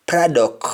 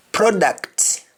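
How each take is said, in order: First: Product ending on K, as "produck"; Jamaican pronunciation. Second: Said in the usual way. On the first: Shown as a demonstration. Teacher showing Jamaican speech, product said as "produck". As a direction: drop the T of product. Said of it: "change that C T to either C K". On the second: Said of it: "English words that end with C T".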